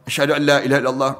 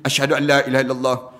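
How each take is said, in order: No difference in how they are said.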